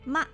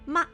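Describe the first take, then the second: First: It is short and light, with neutral tone. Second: It is short and light, with neutral tone.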